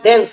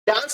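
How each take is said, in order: First: The vowel is a front 'eh' sound. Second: The vowel is a long open 'ah' sound. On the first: The speaker calls it right. "डेंस होता है" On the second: The speaker calls it wrong. "डांस नहीं होता है"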